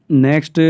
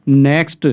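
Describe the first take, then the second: No difference in how they are said.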